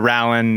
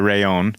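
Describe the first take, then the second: First: The middle consonant is pronounced as an 'l'. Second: The middle consonant is pronounced as a 'y'. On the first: The speaker calls it wrong. "not the Rallon" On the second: The speaker calls it right. "but the Rayon"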